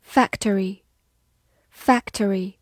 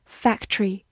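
First: Said in the usual way. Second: "factory" squeezed into two syllables, FAC-tree; alternative pronunciation. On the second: Shown as a demonstration. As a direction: drop the middle vowel of "factory": FAC-tree. (把"factory"读成两个音节：fac-tree) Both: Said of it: "或者读作".

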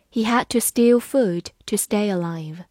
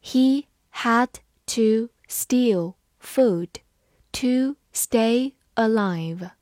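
First: Said in the usual way. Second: Very slow, one word at a time; drawn-out, careful teacher read-through. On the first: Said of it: "慢慢来读". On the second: Shown as a demonstration. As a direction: leave a gap after every word. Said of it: "好，慢慢来读".

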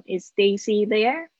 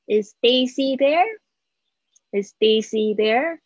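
First: "there" rises at the end; slow, with the tune going up on "there"; rising yes-no question tune. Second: "there" lifted at the end; rising yes-no question tune. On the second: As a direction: let "Daisy there" climb up on the last word. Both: Shown as a demonstration. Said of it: "记得尾巴要上扬".

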